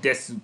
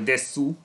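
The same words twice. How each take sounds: First: The final u is dropped or barely heard. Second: The final u is fully pronounced. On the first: The speaker calls it right. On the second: The speaker calls it wrong.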